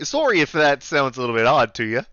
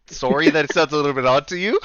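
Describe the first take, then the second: First: Put-on Canadian-accented apology. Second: Repeated Canadian apology, rising at the end; Canadian accent. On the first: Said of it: "deal with the accent". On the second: Shown as a demonstration. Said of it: "Can you repeat that?".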